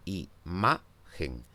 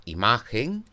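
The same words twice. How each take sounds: First: Imagen said slowly, leaning on the ma; slow demo stressing imagen on the middle syllable; stress on the second syllable. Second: Said in the usual way. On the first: Shown as a demonstration. Teacher slowly models imagen for students, stressing the middle syllable. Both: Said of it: "es la segunda de ellas la sílaba tónica".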